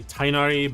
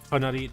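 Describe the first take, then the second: First: It is said with an English-style pronunciation. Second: It is said with an Arabic-style pronunciation. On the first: This is how players usually say it. The speaker calls it wrong. "like we say Tainari" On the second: This is the original way to say it. The speaker calls it right. "but it's actually Tonari"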